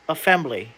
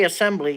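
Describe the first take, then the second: First: The middle consonant is an f sound. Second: The middle consonant is an s sound. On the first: This is how it was supposedly said long ago. "you said assembly" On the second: This is the modern way to say it. "You didn't say assembly"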